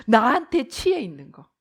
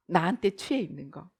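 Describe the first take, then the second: First: Said in the usual way. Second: Softer, lower, savoring the self; dreamy. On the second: Shown as a demonstration. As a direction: whisper it as if drunk on yourself. Repeated softly, self-intoxicated. (자기에게 취한 듯 낮고 부드럽게)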